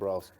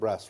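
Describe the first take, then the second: First: The vowel in brass is a long A. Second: The vowel in brass is a short A.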